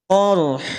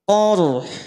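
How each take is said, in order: Both takes have the same delivery.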